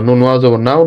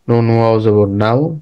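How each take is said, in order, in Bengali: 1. এটা দ্রুত ও সাবলীলভাবে পড়া হচ্ছে, কোনো থামা ছাড়া। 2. এটা ধীরে ধীরে পড়া হচ্ছে, শব্দের মাঝে থেমে থেমে। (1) "আর দ্রুত বলো" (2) "থেমে থেমে বলতেছো না"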